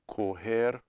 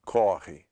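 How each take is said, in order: First: "Correr" with closed first o, stress at the end. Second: "corre" with stressed, open aw. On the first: Teacher contrasting verb forms, closed o in "Correr". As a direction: say "Correr" as ko-HEHR. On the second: Teacher contrasting verb forms, open o in "corre". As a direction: say "corre" as KAW-hee. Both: Shown as a demonstration. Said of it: "that difference of the sound".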